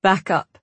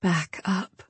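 First: Said in the usual way. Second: Soft, coaxing back up; gentle. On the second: Acted. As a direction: ease him back softly. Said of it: "she said gently".

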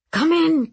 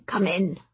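First: High, loud, eager "Come in"; eager welcome. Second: Said in the usual way. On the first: A narrator's reading. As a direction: burst out "Come in" brightly and loud. Lindhall welcomes them eagerly.

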